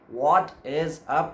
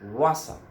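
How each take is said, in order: First: Each word is said separately and in full. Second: The words run together into one reduced word. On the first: "Instead of saying what is up" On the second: "you may say that what's up"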